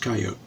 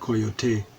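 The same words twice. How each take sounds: First: The word is said with an English pronunciation. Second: The word is said with a Spanish pronunciation. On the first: "where I grew up, everyone just says coyote" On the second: "unless they're speaking Spanish, in which, you know, then they'll say coyote"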